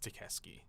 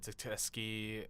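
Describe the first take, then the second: First: The name is said without an extra t sound. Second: The name is said with an extra t sound. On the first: The speaker calls it right. "It's Takeski" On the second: The speaker calls it wrong. "people added an extra T. They said Takeski, and it's just, it's wrong"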